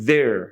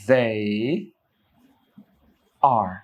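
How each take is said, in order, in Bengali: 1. শব্দ দুটি মিশে একটি ছোট উচ্চারণ-অংশ হয়ে যায়। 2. দুটি শব্দই পুরোপুরি আলাদাভাবে বলা হয়।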